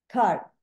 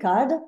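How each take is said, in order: First: The final consonant is barely audible, unreleased. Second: The final consonant is clearly and fully released. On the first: "ils prononcent très peu la consonne finale" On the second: "je les prononce à la française ici"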